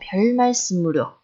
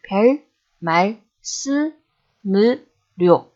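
First: It is said fast, run together. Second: It is said slowly, broken into parts.

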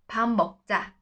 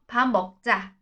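Both takes have the same delivery.

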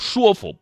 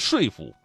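First: The first syllable is pronounced shuo, level tone. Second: The first syllable is pronounced shui, falling tone. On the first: This is the reading the current dictionary gives. The speaker calls it right. "这个词只能读说服" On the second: This is the older reading once taught in school. The speaker calls it wrong. "我当时读的是说服"

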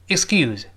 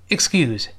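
Both takes have the same delivery.

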